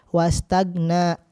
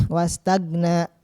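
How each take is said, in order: No difference in how they are said.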